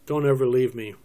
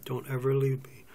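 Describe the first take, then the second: First: Firmer, louder acted plea; louder take, keeping composure; trying not to tear up. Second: A touch tearful, held in; close to tears. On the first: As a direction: plead strongly, holding back tears. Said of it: "I'll try to do this without, uh, tearing up". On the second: Acted. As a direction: plead gently, near crying. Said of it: "I'm gonna cry here".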